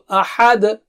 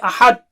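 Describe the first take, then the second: First: The final d is released with an echo. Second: The final d is cut short without echo. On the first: The speaker calls it right. "dal will be clear" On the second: The speaker calls it wrong. "Don't say ahad"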